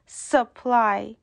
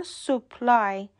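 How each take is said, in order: First: سپلای with a short schwa, suh-PLAI; سپلای, weak uh vowel then a stressed PLAI; correct pronunciation. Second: سوپلای with a full "soo" sound, soo-PLAI; the common Persian error, سوپلای with a round o; سوپلای, first vowel a clear oo; wrong pronunciation. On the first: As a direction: reduce the first vowel of سپلای to a quick uh. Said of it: "باید بگیم سپلای". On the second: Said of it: "سوپلای درست نیست". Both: Shown as a demonstration.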